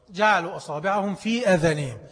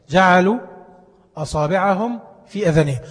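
First: Said in the usual way. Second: جعلوا punched loud with a rise, then أصابعهم في آذانهم carried firmly; verse repeated with جعلوا loud and rising; stress on جعلوا. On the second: Shown as a demonstration. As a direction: hit جعلوا hard, let the rest follow strongly. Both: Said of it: "حد يعرف يحط صباعه في ودنه؟".

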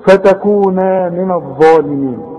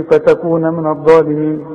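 First: فتكون من الظالمين measured, with long NAA; full alif. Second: فتكون من الظالمين quickly, short NA before MIN; wrong dropped alif. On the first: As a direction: stretch the end of فتكون before من. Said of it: "عندك ألف اهي كاملة". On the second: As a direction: clip the final vowel of فتكون short. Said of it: "في ناس تيجي تقول". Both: Shown as a demonstration.

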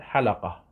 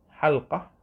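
First: حلقة said as ḥalaqa, open a after l; slow ḥa-la-qa, three syllables; lam with a fatha. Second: حلقة said as ḥalqa, no vowel after the lam; two tight syllables, ḥal-qa; lam without a vowel. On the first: Teacher giving the permitted form, slow ḥalaqa with fatha. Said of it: "ويجوز أن تقول حلقة". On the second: Teacher repeating the preferred form, ḥalqa with silent lam. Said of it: "هذا الأفضل، هذا الأفصح بسكون اللام". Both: Shown as a demonstration.

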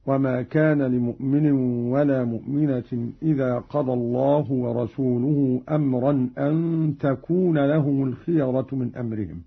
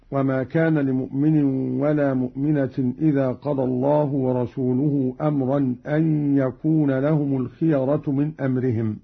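First: "تكون" said with initial t, an takuna; feminine ta. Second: Said in the usual way. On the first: Shown as a demonstration. Teacher showing Qalun's feminine reading, "تكون" begun with ta. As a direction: read "تكون" with ta in place of ya. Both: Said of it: "بالتاء على التأنيث".

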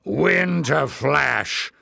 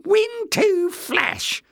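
First: Drawn-out, slightly raised bawl; excited bawl. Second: Very high, drawn-out resentful echo; resentful agreement. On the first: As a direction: bawl it slowly in triumph. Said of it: "bawled Glock in excitement". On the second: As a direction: concede it slowly in a high, sour voice. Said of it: "Jinx agreed resentfully". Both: A narrator's reading.

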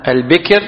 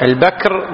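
First: Short i after the b in البكر; kasra on the ba. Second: Short a after the b in البكر; fatha on the ba. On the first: Teacher defining the firstborn word, البكر as al-bikr. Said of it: "بكسر الباء". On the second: Teacher contrasting the young camel word, البكر as al-bakr. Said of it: "وأما بالفتح". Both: Shown as a demonstration.

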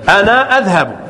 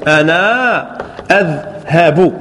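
First: Said in the usual way. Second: أنا أذهب stretched out slowly, each syllable clear; slow syllable demo. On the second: Shown as a demonstration. (نطق بطيء واضح لكل مقطع في أنا أذهب) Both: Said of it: "ماذا تقول؟".

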